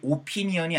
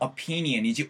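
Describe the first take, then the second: First: The first vowel is a rounded 'o' sound. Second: The first vowel is a weak, unrounded 'uh'. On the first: The speaker calls it wrong. "opinion이 아니에요" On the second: The speaker calls it right. "이건 오 하면서 주둥이가 모아지는 게 아니고요. 에서 opinion 사운드거든요"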